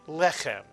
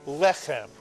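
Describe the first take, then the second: Both takes have the same delivery.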